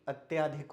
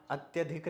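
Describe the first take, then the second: First: अत्याधिक with a long "tyaa" in the middle; form taught as correct. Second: अत्यधिक with a short "tya" in the middle; form marked wrong. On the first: Teacher correcting, अत्याधिक with long middle vowel. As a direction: say अत्याधिक as "at-yaa-dhik". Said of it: "अत्याधिक होता है". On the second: Teacher showing the rejected form, अत्यधिक with short middle vowel. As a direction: say अत्यधिक as "at-ya-dhik". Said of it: "अगला अत्यधिक नहीं". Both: Shown as a demonstration.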